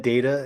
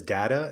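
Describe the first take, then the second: First: "data" with a long A, DAY-ta. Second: "data" with an open A in the first syllable; data with short A. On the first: Explaining old habit, "data" as DAY-ta. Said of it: "always said data until everyone". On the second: Quoting coworkers' way, "data" with short A. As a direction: say "data" to rhyme with "matter". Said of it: "everyone I work with there says data". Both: Shown as a demonstration.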